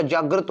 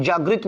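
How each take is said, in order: First: "जागृत" said as jaagrat, with short a; correct form demonstrated. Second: "जागृत" said as jaagrit, with an i; wrong form demonstrated. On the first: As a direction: say "जागृत" with ra in the second syllable. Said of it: "जागृत होता है". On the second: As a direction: say "जागृत" with ri in the second syllable. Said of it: "ये जागृत नहीं होता". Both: Shown as a demonstration.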